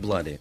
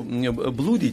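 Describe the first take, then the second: First: The first vowel sounds like 'uh'. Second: The first vowel sounds like 'oo'. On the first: The speaker calls it right. "читается как Блади" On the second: The speaker calls it wrong. "читается как Блади"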